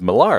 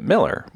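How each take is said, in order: First: The name ends with a pirate-like 'ar' sound. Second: The name ends with a plain 'er' sound. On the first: "like a pirate, like arr" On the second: "they pronounce it Miller, which is totally fine, like the beer"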